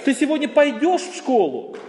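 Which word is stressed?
пойдешь. The stress falls on the word пойдешь. The question is whether or how one goes. "Вообще ты в принципе идешь или нет? Или ты пойдешь, или поедешь"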